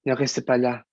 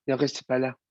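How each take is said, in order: First: "Ne restez pas là" with a strong untrained foreign accent; "Ne restez pas là" said as a foreigner who hasn't worked on the accent; "Ne restez pas là" in a thick accent, the way the teacher objects to; heavy foreign accent. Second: Said in the usual way. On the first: Shown as a demonstration. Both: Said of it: "il faut que tu travailles ton accent".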